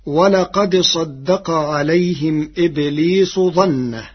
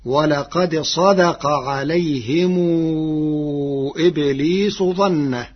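First: صدق with a doubled dal, ṣaddaqa; recited citation. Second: صدق said ṣadaqa with a light single dal; صدق read slowly in Warsh's way. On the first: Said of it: "قرأ ورش كلمة صدق". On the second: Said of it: "فتصير". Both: Shown as a demonstration.

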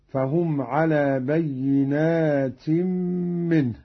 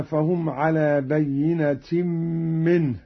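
First: بينات with a long aa after the n; plural with alif. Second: Said in the usual way. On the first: Shown as a demonstration. Teacher demonstrating Qalun's plural reading, slow, long alif in بينات. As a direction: draw out the "naa" in بينات as a plural. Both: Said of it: "بألف بعد النون على الجمع".

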